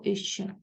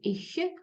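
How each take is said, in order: First: The final consonant sounds like a shch sound. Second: The final consonant is a soft palatal hiss. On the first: "або «іще»" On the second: "здебільшого це м'який «ich»"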